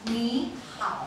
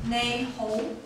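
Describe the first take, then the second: First: It is pronounced the Mandarin way, ni hao. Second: It is pronounced the Cantonese way, nei ho. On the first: "in Chinese we pronounce it as ni hao" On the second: "in Cantonese we pronounce it as nei ho"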